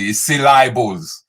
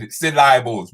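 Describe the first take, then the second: First: "syllables" as sil-EYE-bles, slow and hushed; mispronounced syllables. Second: "syllables" as sil-EYE-bles, a bit louder; mispronounced syllables. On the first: Host whispering the wrong "syllables". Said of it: "DJ Countryman was telling me". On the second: Mimicking Countryman's wrong "syllables". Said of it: "He said". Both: Retold or imitated.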